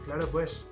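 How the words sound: It is said in a Spanish-from-Spain accent. "in Spain, ... They say"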